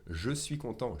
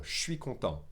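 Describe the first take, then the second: First: "je suis" in full, "content" ending on a nasal vowel; silent final T. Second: "je suis" squeezed into shwee, no T on "content"; silent final T. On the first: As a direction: say "je suis" as two words, no T on "content". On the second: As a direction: contract "je suis" to shwee, end "content" on the vowel. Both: Shown as a demonstration. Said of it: "without saying the T".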